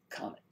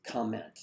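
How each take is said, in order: First: "comment" said as comet, no N; rejected word. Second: "Comment" with the N sounded before the T; corrected word. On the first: Host showing the word not meant, "comment" as comet. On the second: Host correcting own pun, "Comment" with a clear N. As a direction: say "Comment" fully, COM-ment. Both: Shown as a demonstration.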